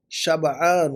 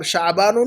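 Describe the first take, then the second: First: شبعان as "shab-'aan", break after b; correct pronunciation. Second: شعبان as "sha'-baan", 'ayn before b; mispronunciation. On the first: Teacher models the word for full, correct pronunciation. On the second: Teacher warns against the month's name, mispronunciation. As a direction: say شعبان with the catch after "sha". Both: Shown as a demonstration. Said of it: "شعبان نہیں کہیں گے".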